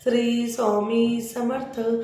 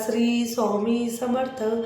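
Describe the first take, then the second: Both takes have the same delivery.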